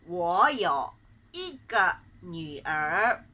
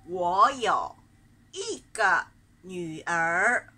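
Both takes have the same delivery.

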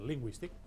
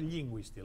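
First: The first L sound is short. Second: The first L sound is long. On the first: The speaker calls it right. "I no és la geminada, a principi de paraula" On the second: The speaker calls it wrong. "no lingüístic"

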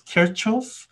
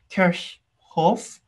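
First: The name is said as one simple word. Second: The name is said as two joined parts. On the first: The speaker calls it wrong. "I've been pronouncing as Kirchhoff for the longest time" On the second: The speaker calls it right. "the correct pronunciation of this treats this as basically two-word compound word"

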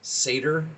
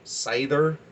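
First: The middle consonant is a plain d sound. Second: The middle consonant is a th sound. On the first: "I have seen it say that it is pronounced Seder" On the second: "I like the D as the TH in the pronunciation of it"

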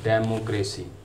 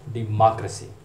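First: It is said with a South Asian non-native accent. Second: It is said with an American accent, open 'ma'. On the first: The speaker calls it wrong. "इस लफ्ज़ को आमतौर पर डेमोक्रेसी पढ़ा जाता है" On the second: The speaker calls it right. "जो American pronunciation है ... इसमें मा"

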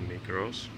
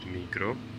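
First: The name ends with an audible s sound. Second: The name ends without any s sound.

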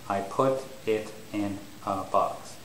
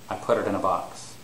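First: The words are said separately, each one with a clear break. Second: The words are linked together smoothly, with the t sounding like a d. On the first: "some English learners, the model in their head may be something like" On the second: "So the normal way to say this is"

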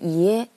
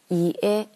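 First: The two syllables are said fast, slightly linked. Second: The two syllables are said slowly and separately.

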